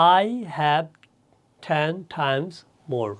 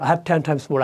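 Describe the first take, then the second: First: The sentence is spoken slowly. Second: The sentence is spoken fast. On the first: "আস্তে আস্তে করে পড়লাম" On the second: "আর একটু speed বাড়ানো"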